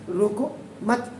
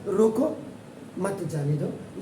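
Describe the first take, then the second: First: "रोको मत" as one unit, drawn out slowly; slow "रोको मत", pausing only after "मत"; pause after the phrase. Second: "रोको" set apart, then a break before "मत जाने दो"; pause after रोको. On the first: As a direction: keep "मत" joined to "रोको", then break. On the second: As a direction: stop after "रोको", slowly continue "मत जाने दो". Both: Shown as a demonstration. Shows how pause changes meaning.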